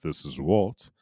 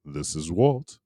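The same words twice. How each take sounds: First: Lower, steadier podcast host voice; Get Geek voice. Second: A touch brighter, louder host voice; CrossGen voice. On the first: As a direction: say your name in your usual host voice. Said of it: "in my Get Geek voice". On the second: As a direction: sign in with your other show's voice. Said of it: "in my CrossGen voice". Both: Shown as a demonstration.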